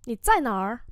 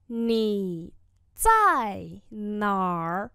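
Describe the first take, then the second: First: Said in the usual way. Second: 你 then 在哪儿 drawn out slowly; slow classroom model; very slow 你在哪儿. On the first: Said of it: "slow repeat follows". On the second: Shown as a demonstration. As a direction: spell it out slowly for learners. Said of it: "slow model repeat".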